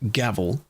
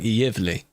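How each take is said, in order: First: The name begins with a hard g sound. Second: The name begins with a y sound. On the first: The speaker calls it wrong. "not gavel" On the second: The speaker calls it right. "Apparently, sub is something like Yevli"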